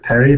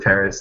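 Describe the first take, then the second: First: The word ends without an s sound. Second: The word ends with an s sound. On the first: This is how the brand name is meant to sound. The speaker calls it right. "It's Perry baguette" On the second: This is the ordinary English name of the city. The speaker calls it wrong. "You said Paris"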